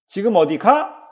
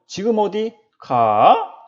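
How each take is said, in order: First: The pitch simply rises on the last syllable. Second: The pitch dips and then rises on the last syllable. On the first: The speaker asks whether the person is going somewhere. "마지막 음절에서 억양이 올라간다" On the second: The speaker asks where the person is going. "억양이 내려왔다가 다시 올라간다"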